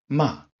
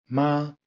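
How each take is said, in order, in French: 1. Le ton tombe brusquement depuis le haut. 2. Le ton reste haut et plat. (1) "quatrième ton, ton qui part de très haut et qui tombe" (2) "Premier ton, haut et tenu"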